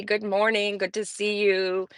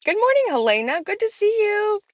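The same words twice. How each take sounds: First: Said in the usual way. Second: Sing-song greeting. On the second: Real, not acted. Greeting a chat viewer.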